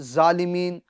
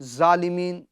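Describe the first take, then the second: The two takes are said the same way.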